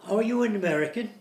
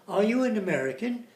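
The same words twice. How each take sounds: No difference in how they are said.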